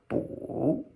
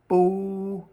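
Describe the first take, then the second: First: The pitch dips low then rises again. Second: The pitch stays high and level. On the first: "It's a falling and then rising tone" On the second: "First tone"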